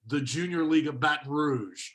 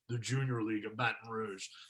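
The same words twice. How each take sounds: First: The voice is plain and ordinary. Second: The voice is dark and menacing.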